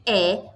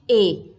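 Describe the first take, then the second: First: "E" said as open eh; teacher showing the open "E". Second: "E" said as closed ê; teacher showing the closed "E". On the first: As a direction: sound out "E" with an open vowel. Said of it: "ele pode ter um som aberto". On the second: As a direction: sound out "E" with a closed vowel. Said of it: "ele pode ter um som fechado". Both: Shown as a demonstration.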